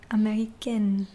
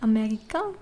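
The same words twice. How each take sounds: First: Américaine with a clear n at the end; pronounced final n; feminine form. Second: Américain ending in a nasal vowel, no n; masculine form. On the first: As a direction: sound the n in américaine. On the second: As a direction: drop the n in Américain. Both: Shown as a demonstration. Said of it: "can you hear the tiny difference".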